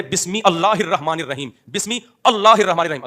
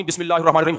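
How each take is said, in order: First: بسم اللہ split as "bismi Allahir", hamza sounded; slowly and emphatically separate "bismi" from "Allah"; mock correction. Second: بسم اللہ run together as "bismillah"; normal joined reading. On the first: Teacher parodying a false corrector, split misreading. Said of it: "اصل یہ ہے". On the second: Teacher quoting a supposedly wrong reader, joined reading. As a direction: link the whole phrase quickly, "bismillahir-rahman". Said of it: "غلط پڑھتا ہے". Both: Shown as a demonstration.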